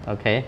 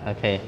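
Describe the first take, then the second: Both takes have the same delivery.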